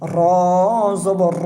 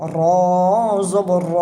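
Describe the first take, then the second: The two takes are said the same way.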